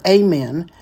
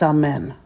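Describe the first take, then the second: First: It has an American English pronunciation. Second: It has a Hebrew pronunciation. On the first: "Some people in English here in the United States call it amen" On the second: "but in Hebrew it's amen"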